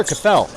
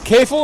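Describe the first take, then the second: First: Kafel stressed on the last syllable; second name variant. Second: Kafel stressed on the first syllable; first name variant. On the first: Commentator weighing how a goalie's name goes, Kafel with end stress. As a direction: say Kafel as kuh-FELL. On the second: Commentator weighing how a goalie's name goes, Kafel with front stress. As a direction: say Kafel as KAY-ful. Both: Shown as a demonstration. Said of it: "Is it Kafel or Kafel?".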